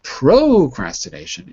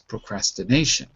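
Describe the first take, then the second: First: The stress falls on a syllable other than 'na'. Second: The stress falls on the 'na' syllable. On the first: The speaker calls it wrong. "It's not procrastination" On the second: The speaker calls it right. "it's procrastination. So again, it'll be stressed on the syllable before"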